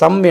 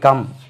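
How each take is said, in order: First: The word begins with an s sound. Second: The word begins with a k sound. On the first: The speaker calls it wrong. "இந்த இடத்துல சம் என்று சொல்லுவோம்" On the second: The speaker calls it right. "இந்த இடத்துல கா என்று உச்சரிக்குது"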